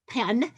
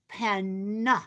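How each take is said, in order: First: The word is said quickly and casually. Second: The word is said slowly and clearly articulated.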